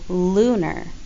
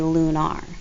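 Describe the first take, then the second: First: The last syllable has a weak 'er' sound. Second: The last syllable has a full 'ar' sound. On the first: The speaker calls it right. "We say lunar" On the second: The speaker calls it wrong. "We don't say lunar"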